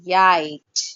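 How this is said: The word starts with a 'y' glide sound. The speaker's first language is shaping their English. "if an influence of the other language is there on that particular language, they will say yite"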